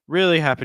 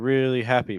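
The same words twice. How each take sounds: First: The stress falls on the word really. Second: The stress falls on the word happy. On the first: The speaker calls it right. "I was expecting more of a stress on really" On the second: The speaker calls it wrong. "Instead of"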